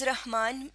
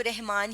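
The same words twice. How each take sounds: First: رحمان with an open a, "rah-maan"; correct pronunciation. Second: رحمان with an e, "reh-maan"; common pronunciation. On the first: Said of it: "درست تلفظ رحمان ہے". (رحمان رے پر زبر کے ساتھ) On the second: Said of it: "زیادہ تر لوگ اس کو رحمان ہی". (رحمان عام تلفظ میں، "رِحمان") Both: Shown as a demonstration.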